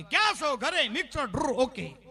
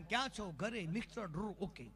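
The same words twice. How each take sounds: First: Loud, high call, rapid-fire exchange; loud phone check. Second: Soft recital sinking in pitch; weary routine. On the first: Wife checks on husband at night, loud high exchange. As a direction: rattle off the routine at full volume. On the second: Husband's phone check for the umpteenth time, soft weary recital. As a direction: let the routine tail away softly. Same routine summed up, dropping away. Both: Retold or imitated.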